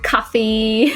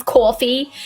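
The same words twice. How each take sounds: First: Said in the usual way. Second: "coffee" as "cawfee", New York style; slipping into New York on "coffee"; New York accent. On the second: Shown as a demonstration. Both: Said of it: "my New York comes back if".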